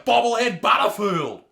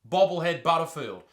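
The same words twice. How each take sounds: First: It is said in a flirtatious, suggestive tone. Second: It is said in a flat, neutral tone. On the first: "give the right inflection of your voice" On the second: "What about this?"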